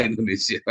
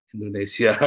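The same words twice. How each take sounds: First: Indonesia said through a laugh. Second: Said in the usual way. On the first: Real, not acted. Speaker mocks Indonesians to the audience, laughing. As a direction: laugh at your own country.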